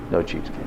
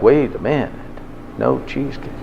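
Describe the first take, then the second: First: A grave, soft-spoken echo; low hushed dread. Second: Breathy whispered panic as it dawns; a near-whisper of sudden dread; hushed panic. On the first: Shown as a demonstration. Lecturer repeating it to the class, low and hushed. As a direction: drop low and soft, letting it sink in. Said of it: "Do you know what that really means?". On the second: Retold or imitated. Imitating the dieter's inner panic, whispered.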